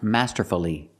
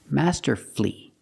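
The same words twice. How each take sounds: First: It is said with four syllables, the middle vowel heard. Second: It is said with three syllables, no middle vowel. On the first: The speaker calls it wrong. "The word is not pronounced masterfully" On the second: The speaker calls it right. "the U is silent"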